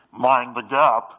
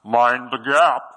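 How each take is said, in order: First: Slow, loud British "mind the gap"; British announcer. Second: Slow, loud British announcer; loudspeaker voice. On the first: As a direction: boom it like the old loudspeaker. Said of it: "not as nice as". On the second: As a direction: boom it out like a station speaker. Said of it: "it kinda sounds like this". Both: Retold or imitated.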